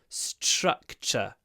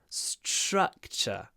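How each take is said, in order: Both takes have the same delivery.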